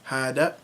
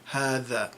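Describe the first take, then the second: First: The middle consonant is a d sound. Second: The middle consonant is a voiced th sound. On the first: This is the Saudi and Peninsula dialect form. "hada with a d" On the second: This is the standard literary form. "in modern standard Arabic, you say"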